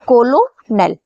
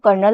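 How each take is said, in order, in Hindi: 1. यह तीन अक्षरों में बोला जाता है, ko-lo-nel। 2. यह दो अक्षरों में बोला जाता है, जैसे kernel। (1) "इसे आप इस तरीके से याद कर सकते हो" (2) "इसका जो प्रोनाउंसिएशन है वो कर्नल होता है"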